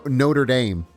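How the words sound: It is pronounced the American way. It names the place in America. "and then in America, you've got no- Notre Dame"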